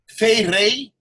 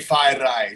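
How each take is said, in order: First: The vowels sound like 'ay' as in day. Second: The vowels sound like 'eye' as in high. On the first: This is how it is said in Tahiti. "in Tahiti they they say" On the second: This is how the family says it. "my parents kind of they just say"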